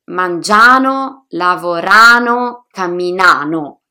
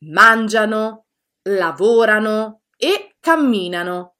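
First: Mangiano, lavorano, camminano stressed wrongly on the ending; louder, leaning on the desinence -ano; teacher mimicking the common learner mistake. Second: Mangiano, lavorano, camminano stressed before the ending, MAN-gia-no, LA-vo-ra-no, CAM-mi-na-no; teacher giving the correct model. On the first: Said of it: "pronunciate in maniera errata". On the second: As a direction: keep the -ano ending light. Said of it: "La pronuncia corretta". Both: Shown as a demonstration.

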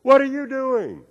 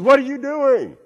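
First: High, slow echo of a yell. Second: High, loud drawn-out holler; yelling out. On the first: Canyon voice repeats the boy's question, echoing call. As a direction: mimic the call back high and stretched. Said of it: "And the voice said". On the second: Boy demands answers from the unseen voice, yelling out. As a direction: yell it high across a canyon. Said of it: "he yelled out". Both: Acted.

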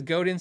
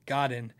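First: Godin with a long O, "GO-din". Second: Godin starting like "god". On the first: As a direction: say Godin with "go" first, then "din". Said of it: "somebody's gonna say Godin". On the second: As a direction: say Godin with a short, open O, "GOD-in". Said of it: "for everyone who says Godin". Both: Shown as a demonstration.

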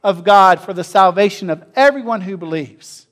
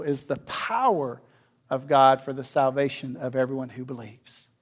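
First: Ringing proclamation. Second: Softer, lower reading of the verse; hushed restatement; quiet reflective reading. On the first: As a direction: read out loud and strong. Preacher reading the verse aloud. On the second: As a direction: let the verse settle gently. Same verse repeated, quieter. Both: Acted.

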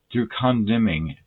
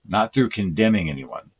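First: Condemning with the emphasis on the wrong syllable, CON-demming; "condemning" stressed oddly on its first syllable. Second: Said in the usual way. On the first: Real, not acted. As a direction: misplace the stress in "condemning", hitting CON with a full vowel. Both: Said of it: "Wrong emphasis and the wrong syllable".

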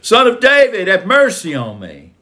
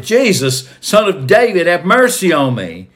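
First: Very high, loud cry for mercy; louder shouted plea. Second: High, raised cry for mercy; shouted plea. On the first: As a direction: call out at the top, insistent and pleading. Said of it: "he started shouting even louder". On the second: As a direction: call out loudly to someone passing by. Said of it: "And so he shouted". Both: A narrator's reading.

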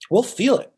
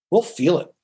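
First: "We'll feel it" repeated much higher on "feel", rising; lifted repeat. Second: Said in the usual way. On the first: Shown as a demonstration. Coach repeating to lawyers, "feel" lifted high. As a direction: lift "feel" up high the second time.

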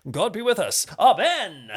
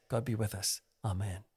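First: Booming, raised Charlton Heston-style prayer; older preacher. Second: Soft, low "God be with us"; low-volume prayer. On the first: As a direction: proclaim it loud and high like an old-time preacher. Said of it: "how older types, older preachers might say". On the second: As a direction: let the prayer drop away, quiet and low. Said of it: "he probably meant volume, you know, rather than say". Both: Shown as a demonstration.

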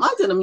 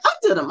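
First: Said in the usual way. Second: I did 'em, thrown up high with pride; proud I did 'em. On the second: Retold or imitated. Artist answering friends' praise, proud and high. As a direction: chirp it out, bursting with pride. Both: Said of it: "And it's like".

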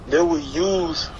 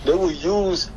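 The two takes are said the same way.

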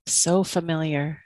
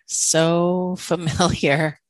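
First: Said in the usual way. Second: Slow, laughing repeat of so familiar. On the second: Real, not acted. Host recognising herself, laughing slowly through it. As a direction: let a real laugh break through, drawn out slowly.

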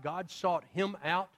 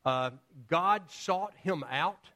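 First: God sought him out, with him rising; stress on him. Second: God sought him out, with God drawn out and rising; stress on God. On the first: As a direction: lean on him and say the line slowly. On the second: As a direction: lean on God and say the line slowly. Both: Shown as a demonstration. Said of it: "He didn't seek God out".

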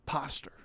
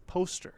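First: "Poster" misread as "POSS-ter", quietly; misread word. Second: "Poster" said properly with a long O, "POHS-ter"; correcting. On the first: Rodeo student reading the syllabus, "Poster" mispronounced as "POSS-ter". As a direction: say "Poster" with a short "ah" vowel, like "paster". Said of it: "was not the brightest bulb in the room". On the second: Classmate correcting rodeo student, "Poster" as "POHS-ter". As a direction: quietly correct it, "Poster" with an "oh" vowel. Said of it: "I says". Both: Retold or imitated.

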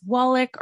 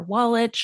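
First: "Wallach" ending in a hard k; "Wallach" with a final k sound, like Wallick; alternative pronunciation. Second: "Wallach" ending in a ch sound; alternative pronunciation. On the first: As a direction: say "Wallach" as WALL-ick. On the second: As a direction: say "Wallach" as WALL-itch. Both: Shown as a demonstration. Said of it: "not sure if I'm pronouncing that right".

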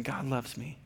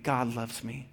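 First: Put-on echoing child. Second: Gentle bedtime affirmation. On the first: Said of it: "she'll say". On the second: Retold or imitated. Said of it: "end with saying".

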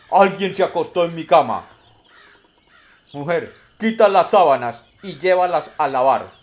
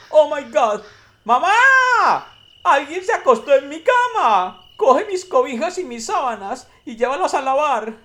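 First: Big booming bear voice, much louder; papa bear. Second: Very high, loud squealing cub voice; baby bear. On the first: Papa bear finds his bed messed up, loud booming voice. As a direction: boom it out like an indignant father bear. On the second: Baby bear calls mama about his bed, very high loud squeal. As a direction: squeal it like an outraged little child. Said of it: "desarreglada y dijo". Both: Acted.

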